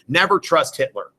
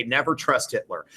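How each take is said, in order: First: Firm, with "Never" leaned on; stern warning on "Never"; emphatic warning. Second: "never trust Hitler" repeated quieter and lower, like a knowing aside; muttered-sounding reminder; softer aside. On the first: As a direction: land "Never trust Hitler" as a punchline. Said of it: "Okay, never trust Hitler". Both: Shown as a demonstration.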